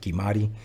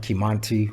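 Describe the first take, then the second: First: No n sound comes before the t. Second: An n sound comes before the t. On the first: This is how the family says it. "we pronounce it Kimati" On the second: This follows the written spelling. "It's spelled Kimanti"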